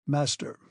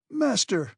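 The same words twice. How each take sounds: First: Calm. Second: High, sharp shouted cry. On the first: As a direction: say it calmly, pointing the way. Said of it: "calmly pointing to my uncle said". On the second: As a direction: throw the word out as a protest. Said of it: "I shouted". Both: A narrator's reading.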